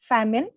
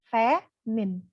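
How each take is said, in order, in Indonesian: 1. Kata itu diucapkan dengan kecepatan normal. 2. Kata itu diucapkan dengan lambat dan cermat.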